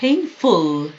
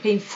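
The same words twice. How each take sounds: First: "Painful" with a short, light "ful"; short correct ending. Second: "Painful" with the "ful" stretched long, as a mistake; drawn-out wrong ending. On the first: Teacher modelling a short "ful" in "Painful" for students. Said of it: "فول رو، اه، اوش رو زیاد نکشین". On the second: Teacher warning students not to stretch the "ful" of "Painful". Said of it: "اوش رو زیاد نکشین". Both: Shown as a demonstration.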